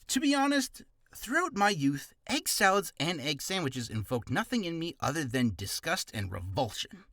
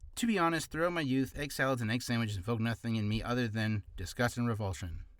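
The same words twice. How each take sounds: First: It is read with lively feeling. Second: It is read flatly without feeling.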